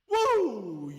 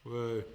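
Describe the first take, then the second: First: It is said with real enthusiasm. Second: It is said with sarcastic, fake cheer.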